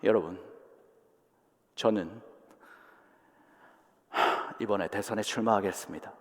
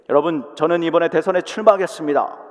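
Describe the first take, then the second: First: It is read with a breath and pauses. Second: It is read forcefully straight through without pauses. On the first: The speaker calls it right. "제가 숨을 한번" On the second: The speaker calls it wrong. "그냥 힘있게"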